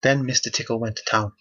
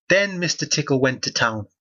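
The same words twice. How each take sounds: First: Said in the usual way. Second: Re-read it pointedly, lifting "Then"; pointed repeat. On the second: Shown as a demonstration. Reader repeats the book's line to highlight its wordplay, pointedly.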